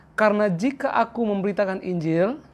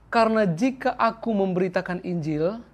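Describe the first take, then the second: Both takes have the same delivery.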